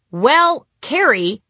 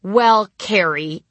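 First: High, loud drawn out stall. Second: Slow, drawn out stalling; slow repeat. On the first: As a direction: stall for time on stage. Stalling after forgetting line. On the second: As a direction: repeat it slowly to buy time. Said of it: "I repeated". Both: Retold or imitated.

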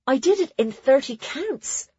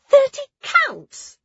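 First: Put-on high, pleased girl's voice; proud announcement. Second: Very high, slow, loud disbelief; astonished gasp. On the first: Nona telling friends her record time, proud. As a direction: announce it proudly, lifting at the end. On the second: Ruli hearing Nona's record time, astonished. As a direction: gasp it back, stretched and squeaking high. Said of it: "Ruli gasped". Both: A narrator's reading.

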